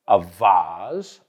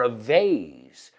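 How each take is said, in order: First: Vase said VAHZ, drawn out; slow "vase" with an ah vowel; broad A in vase. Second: Vase said VAYZ, drawn out; slow "vase" with an ay vowel; long A in vase. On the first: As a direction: say vase to rhyme with Oz. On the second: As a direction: say vase to rhyme with days. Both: Shown as a demonstration. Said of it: "Another word like that is".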